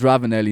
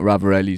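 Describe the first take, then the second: First: The consonant before 'elli' is an N sound. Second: The consonant before 'elli' is an R sound. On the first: The speaker calls it right. "his name is Ravanelli" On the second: The speaker calls it wrong. "not Ravarelli"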